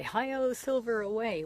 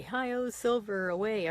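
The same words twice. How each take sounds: First: High, loud heroic cowboy cry; rally the horse like the radio Lone Ranger; Lone Ranger call. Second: Drawn-out heroic radio cowboy cry, pitched up and loud; Lone Ranger call. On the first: Repeating the Lone Ranger's radio call, high heroic cry. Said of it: "he'd always say". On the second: Widow recalling the radio hero of her childhood, slow heroic cry. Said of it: "he'd say". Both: Retold or imitated.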